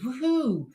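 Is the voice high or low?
high. It is said in a higher voice.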